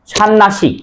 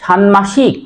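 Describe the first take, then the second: First: ষান্নাসিক said shan-nashik, no m; double n option. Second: ষান্মাসিক said shan-mashik, m sounded, slow; m form offered. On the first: Teacher offers students the other option, n doubled. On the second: Teacher offers students one option, m pronounced. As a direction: keep a clear m after n in ষান্মাসিক. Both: Shown as a demonstration. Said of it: "এটা উচ্চারণ কি হবে".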